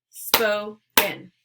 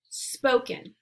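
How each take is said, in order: First: "Spoken" said in two beats, SPO-KEN; syllable-by-syllable; syllables split. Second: Said in the usual way. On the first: Shown as a demonstration. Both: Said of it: "break it into the two syllables".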